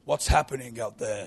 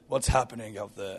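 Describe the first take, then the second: First: Said in the usual way. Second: Lightly voiced wise creature, lower pitch; a hint of a sage, pitched down and understated. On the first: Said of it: "wise voice". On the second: Gorgonite asks the little boy, lightly put-on wise voice. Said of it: "dead wise voice".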